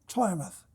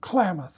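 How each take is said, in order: First: The word begins with a T sound. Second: The word begins with a K sound. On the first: This is how an early explorer said it. "what Fremont calls it with a T" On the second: This is how people say it today. "you and I say the word Klamath with a K"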